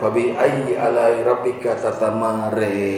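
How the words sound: The final vowel sounds like an 'e'. This is a regional dialect reading. "bacaannya aneh Pak"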